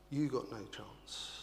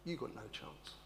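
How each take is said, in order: First: "You got no chance" restated more firmly, with weight on "You"; firm repeat. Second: "you got no chance" dropped to a soft, low murmur; quiet aside. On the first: Preacher repeating the point to the congregation, firmly. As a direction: drive it home. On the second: Preacher murmuring the point to himself, softly. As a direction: let it fall away quietly. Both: Shown as a demonstration.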